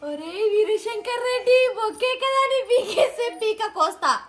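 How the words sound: It is said with surprise.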